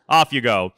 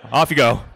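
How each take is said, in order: First: Laughing send-off. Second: Relieved send-off. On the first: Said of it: "you're like". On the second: Dad relieved he has boys. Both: Retold or imitated.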